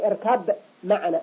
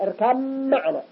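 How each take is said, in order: First: The b sound is pronounced separately. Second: The b sound merges into the following m. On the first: The speaker calls it wrong. "لا نقول" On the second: The speaker calls it right. "وهذا إضغام المتجانسين"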